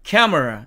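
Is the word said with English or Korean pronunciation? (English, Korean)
English. It is said with native English pronunciation. The speaker calls it right. "영어식으로 읽으면 camera"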